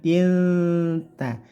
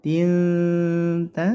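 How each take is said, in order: No difference in how they are said.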